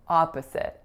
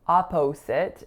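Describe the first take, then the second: First: The second syllable has a reduced vowel. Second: The second syllable has a full vowel. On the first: The speaker calls it right. "it's a-p-sit" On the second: The speaker calls it wrong. "The second syllable is not o or a, so it's not opposite"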